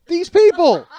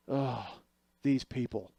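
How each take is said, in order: First: Very high, very loud incredulous yell; outraged shout. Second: Subdued, sighing disdain; weary exasperation. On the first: Real, not acted. Comic repeating the doctor's words to the audience, outraged shout. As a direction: explode in laughing, high-pitched disbelief. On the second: Retold or imitated. Doctor reacting to how the nurses did it, weary exasperation. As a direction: imitate a doctor sighing in resignation.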